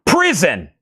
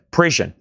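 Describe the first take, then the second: First: Prison forced out with a clean z, higher and punchy; frustrated do-over, Prison said right at last; emphatic correction. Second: Prison with a zh sound, prizhun; tired fumble on Prison, prizhun; mispronounced prison. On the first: Shown as a demonstration. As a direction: nail Prison properly with a crisp z, prizzen. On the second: Real, not acted. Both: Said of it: "I can't say prison right tonight".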